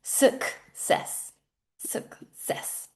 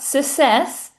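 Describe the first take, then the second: First: "success" with sək-sess, almost whispered; correct "success". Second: "success" without the k, hissed s; wrong form "sussess". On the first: Teacher gives the correct "success" softly. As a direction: put the k back in "success". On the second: Teacher shows the wrong "success". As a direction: say "success" dropping the k. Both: Shown as a demonstration. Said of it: "Not, not success".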